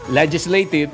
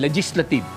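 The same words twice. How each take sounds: First: The stress is on the first syllable. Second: The stress is on the second syllable. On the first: The speaker calls it right. "gaya ng" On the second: The speaker calls it wrong. "naging legislative ... Mali-mali po yung emphasis eh"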